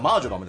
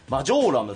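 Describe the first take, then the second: First: The long vowel falls on the first syllable. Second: The long vowel falls on the second syllable. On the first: The speaker calls it right. "正式には" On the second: The speaker calls it wrong. "発音間違えちゃってた"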